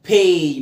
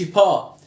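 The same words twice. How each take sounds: First: باي said "pay", with a long A; باي as in English "pay"; correct vowel. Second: با said "pa", with an open ah; با as the wrong "pa"; mistaken vowel. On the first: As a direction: say باي with an "ay" glide. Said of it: "ما تقولش با". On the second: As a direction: say با with no "ay" glide. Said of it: "ما تقولش". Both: Shown as a demonstration.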